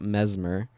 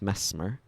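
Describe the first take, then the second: First: The middle consonant is a buzzing Z sound. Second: The middle consonant is a soft S sound. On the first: The speaker calls it wrong. "not a Z sound, so it's not mesmer like the Guild Wars one" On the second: The speaker calls it right. "The double S means that it's soft"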